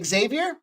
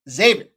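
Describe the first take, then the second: First: The name begins with an ex sound. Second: The name begins with a z sound. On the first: The speaker calls it wrong. "if you hear anybody say Xavier, stop following him" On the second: The speaker calls it right. "The X is a Z. That's how they pronounce that one"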